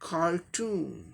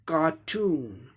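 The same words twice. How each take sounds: First: The r after the first vowel is pronounced. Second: The r after the first vowel is silent. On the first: "रॉ भी आ जाएगा sound इसमें American में" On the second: "ये British English pronunciation हो गया"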